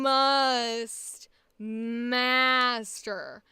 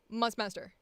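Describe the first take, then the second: First: The vowels are lengthened and drawn out. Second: The words are squashed together quickly.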